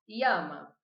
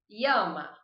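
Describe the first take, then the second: First: The ll is said like an i sound. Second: The same.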